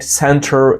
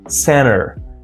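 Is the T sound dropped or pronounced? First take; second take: pronounced; dropped. First: The T after N is pronounced. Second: The T after N is dropped. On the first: "It's not" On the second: "drop T"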